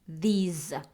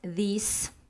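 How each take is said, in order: First: The word ends with a buzzing Z sound. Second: The word ends with a hissing S sound. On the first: The speaker calls it right. "Z sound" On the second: The speaker calls it wrong. "Not these. ... Not the S sound"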